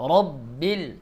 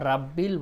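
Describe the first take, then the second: First: The R is heavy, with a darker vowel. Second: The R is light, with an open a vowel. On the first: The speaker calls it right. "রর উচ্চারণ মোটা হবে" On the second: The speaker calls it wrong. "রাব্বিল বলা যাবে না"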